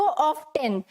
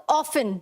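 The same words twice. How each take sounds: First: Often said as OFF-ten, T sounded; often pronounced with an audible T; American-style often with T. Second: Often said as OFF-un, no T sound; often pronounced without its T; often with silent T. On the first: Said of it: "अगर American English में है". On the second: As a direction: say often like "awfun", the T left silent. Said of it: "लेकिन जो ज्यादा use होता है". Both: Shown as a demonstration.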